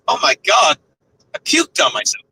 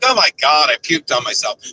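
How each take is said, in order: First: It is said without a sad tone. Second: It is said in a sad tone. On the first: The speaker calls it right. "the right way to say it would probably be" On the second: The speaker calls it wrong. "I'll say it sadly ... which probably is not the right way to say it"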